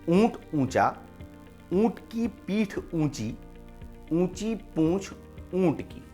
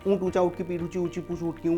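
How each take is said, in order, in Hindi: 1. इसे धीमी, सावधानी भरी गति से बोला जाता है। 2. इसे बहुत तेज़ गति से बोला जाता है।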